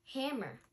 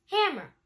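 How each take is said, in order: First: Said in the usual way. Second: Loud call. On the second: Acted. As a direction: hammer called high and loud. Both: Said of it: "Rocky said".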